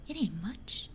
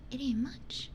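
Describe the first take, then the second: No difference in how they are said.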